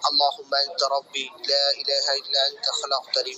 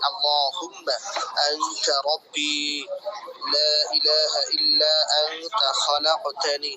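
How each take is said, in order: First: It is read plainly and steadily, without elongated sounds. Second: It is recited with lengthened, drawn-out recitation sounds. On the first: "এভাবে পড়বেন" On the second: "এভাবে পড়ার প্রয়োজন নেই"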